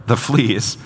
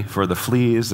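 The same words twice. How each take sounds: First: Higher, disbelieving repeat of "the fleas"; incredulous echo. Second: Mild, unhurried thanks; serene. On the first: Corrie balks at her sister's thanks, incredulous. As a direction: throw "the fleas" back in disbelief. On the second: Betsy gives thanks for the fleas, serenely. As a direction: calmly draw out "for the fleas". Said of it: "Betsy went on serenely". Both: A narrator's reading.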